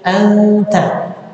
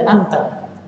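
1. Diucapkan dengan gaya bacaan Al-Qur'an yang cermat. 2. Diucapkan dengan biasa, seperti tutur sehari-hari. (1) "panggil ditajwid" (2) "Biasa saja"

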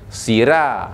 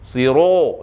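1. Bunyi r dibuat tipis dan ringan. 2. Bunyi r dibuat terlalu tebal dan gelap. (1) "yang tak betulnya, sira. Ha, itu salah lah" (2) "Itu tebal sangat ataupun lebih sangat"

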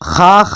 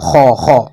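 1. ഈ ശബ്ദം നേർത്തതാണ്, വായ നിറയാതെ. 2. ഈ ശബ്ദം കനത്തതാണ്, വായ നിറച്ച്. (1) "ഹ ഹ എന്ന് പറയാതെ" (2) "വായ നിറച്ചു പറയണം"

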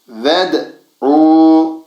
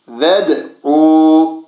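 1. Ünlü kısadır, doğrudan d'ye geçilir. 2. Ünlü kısadır, doğrudan d'ye geçilir.

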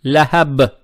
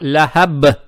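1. Конечная b остаётся полностью звонкой. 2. Конечная b остаётся полностью звонкой.

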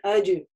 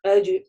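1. Средний согласный — звонкий звук dj. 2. Средний согласный — звонкий звук dj.

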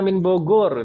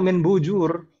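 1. Nama tempat itu diucapkan dengan bunyi G keras. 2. Nama tempat itu diucapkan dengan bunyi J. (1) "kalau bisa kita mengucapkannya pakai G" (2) "Jangan bilang min bujur"

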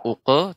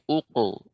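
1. Bunyi q itu ringan dan tipis. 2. Bunyi q itu berat dan tebal. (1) "bukan uko" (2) "tapi uko"

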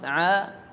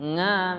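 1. Bunyinya jernih, tanpa kualitas sengau. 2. Bunyinya sengau, keluar melalui hidung. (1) "suaranya mantap, bagus" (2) "suaranya berubah menjadi nga"

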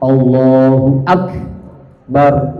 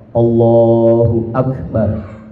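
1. Akbar dipisah oleh jeda menjadi dua bagian. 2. Akbar diucapkan dengan lancar sebagai satu kata utuh. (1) "jadi seperti dua kalimat" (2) "pakai hamas dia Akbar"

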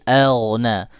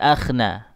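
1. Konsonan tengahnya adalah bunyi gh. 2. Konsonan tengahnya adalah bunyi kh. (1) "tapi elna" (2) "huruf gha bukan akh, bukan akhna"

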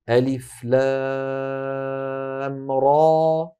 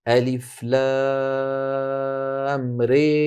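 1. الحركة الأخيرة مفتوحة تماماً، مثل a. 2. الحركة الأخيرة مرفوعة بقوة، نحو ee. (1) "مفتوحة مفخمة" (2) "والإمالة تكون هكذا"

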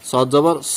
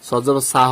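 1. স্বরটি ভারী ও মোটা, স্পষ্ট 'aa' নয়। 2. স্বরটি স্পষ্ট, খোলা 'aa' ধ্বনি। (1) "সদ জবর স বলেছি" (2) "সদ জবর সা হবে না, আকার উচ্চারণ হবে না"

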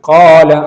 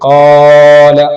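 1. ആദ്യ സ്വരം രണ്ട് മാത്ര നേരം പിടിച്ചിരിക്കുന്നു. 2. ആദ്യ സ്വരം വളരെ അധികം നീട്ടിയിരിക്കുന്നു. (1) "ഇതാണ് മദ് അസ്ലി" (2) "ഖാല പോലെ അല്ലെങ്കിൽ ഖല പോലെ, ഇത് രണ്ടും തെറ്റായ രൂപമാണ്"

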